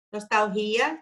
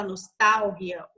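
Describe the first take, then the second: First: "nostalgia" stressed on the i, nos-tal-GÍ-a; incorrect pronunciation. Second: "nostalgia" stressed on TAL, nos-TAL-gia, with Spanish g like h; Spanish pronunciation. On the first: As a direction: push the stress in "nostalgia" to the GI syllable. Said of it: "tá incorreto". ("nostalgia" errado, com a tônica no i) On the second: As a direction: hit TAL in "nostalgia", light final syllable. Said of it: "no espanhol a gente fala". ("nostalgia" em espanhol, com a tônica em TAL) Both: Shown as a demonstration.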